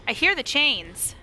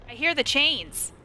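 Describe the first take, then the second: No difference in how they are said.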